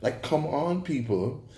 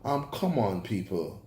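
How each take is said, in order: First: "come on, people" with a rising, pleading tune; exasperated appeal. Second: "come on, people" falling and dropping off softer at the end; fed-up plea. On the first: Reviewer pleading with the show makers, rising incredulous appeal. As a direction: toss it up as an incredulous challenge. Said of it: "those fake Jamaican accents were". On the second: Reviewer scolding fake accents, weary falling plea. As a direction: let it sag with weary disgust. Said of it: "Those horrible Jamaican accents". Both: Real, not acted.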